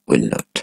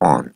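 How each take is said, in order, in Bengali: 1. এটি পূর্ণভাবে দুটি শব্দ হিসেবে বলা হয়। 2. এটি একটি ছোট, সংকুচিত শব্দাংশ হিসেবে বলা হয়।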